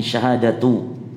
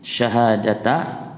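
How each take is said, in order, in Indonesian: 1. Kata itu berakhir dengan vokal 'u'. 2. Kata itu berakhir dengan vokal 'a'. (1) "Syahadatu boleh dibaca rafa, ini syahadatu" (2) "dibaca apa fathah syahadata"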